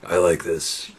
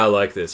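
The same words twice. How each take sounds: First: It is said in a deep, gravelly put-on voice. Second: It is said in a normal speaking voice.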